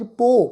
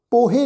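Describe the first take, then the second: First: ਪੋ said as one syllable, a plain long o with no ਹ; ਪੋ pronounced short, sihari on ਹ left unspoken; correct pronunciation. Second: ਪੋਹੇ said with a sounded ਹ and ਏ ending, the wrong way; ਪੋਹੇ with the extra ਹ sound pronounced; wrong pronunciation. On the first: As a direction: clip it to just ਪੋ, silent ਹ. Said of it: "ਪੱਪੇ ਉੱਤੇ ਹੋੜੀ ਦੀ ਮਾਤਰਾ". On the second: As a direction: say ਪੋਹੇ as two syllables, po-he. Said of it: "ਪੋਹੇ ਨਹੀਂ ਇਹਨੂੰ ਪਾਠ ਉਚਾਰਨ ਕਰਨਾ". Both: Shown as a demonstration.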